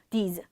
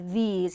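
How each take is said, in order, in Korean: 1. 모음을 짧고 끊어서 발음해요. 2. 모음을 길고 늘여서 발음해요. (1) "짧게가 아니라" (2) "이렇게 모음 소리가 연달아서 두 번 나오는 경우에는 길게 발음해"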